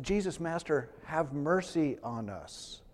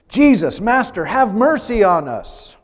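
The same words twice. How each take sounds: First: Much softer, slow and hushed; quiet humble asking for mercy; soft plea. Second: Loud, high calling out from a distance; pleading call for mercy; desperate cry. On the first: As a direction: say it gently, almost to yourself. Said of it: "They said". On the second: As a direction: cry out to be heard from far off. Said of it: "they call out to Jesus". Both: Acted.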